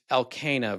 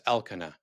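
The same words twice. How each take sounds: First: Elkanah said el-KAY-nuh; long A, stressed, in the middle of Elkanah; stress on second syllable. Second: Elkanah said EL-kuh-nuh; stress on first syllable. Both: Shown as a demonstration. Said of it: "so many more examples".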